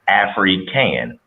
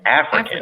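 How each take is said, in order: First: The two parts are said slowly and separately. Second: The two parts are run together quickly. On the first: A girl named Afri is able to do things. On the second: It sounds like the word for someone from Africa.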